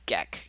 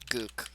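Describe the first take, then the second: First: The name rhymes with neck, like guess. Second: The name has an oo vowel sound. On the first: The speaker calls it right. "It's Geck. It's like guess" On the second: The speaker calls it wrong.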